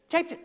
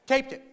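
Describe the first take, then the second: First: Taped it echoed higher in disbelief; incredulous repeat. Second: Said in the usual way. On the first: Shown as a demonstration. Comic repeating the audience answer, rising and incredulous. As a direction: act stunned by the answer taped it.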